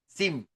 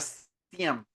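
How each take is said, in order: First: The acronym is said as one syllable, sim. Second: The acronym is said as two syllables, see-am. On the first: The speaker calls it right. "Es SIM" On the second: The speaker calls it wrong. "yo digo SIAM, ¿no es cierto? Y está mal dicho"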